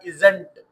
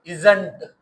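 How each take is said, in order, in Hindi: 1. यह एक संक्षिप्त (कॉन्ट्रैक्टेड) शब्द के रूप में बोला जाता है। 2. यह एक संक्षिप्त (कॉन्ट्रैक्टेड) शब्द के रूप में बोला जाता है।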